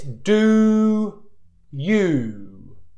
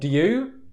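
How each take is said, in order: First: The oo vowel is held fully before moving on. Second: The oo vowel slides early into the next sound. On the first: The speaker calls it right. "the correct pronunciation is this" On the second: The speaker calls it wrong. "I see a lot of people all the time going do you"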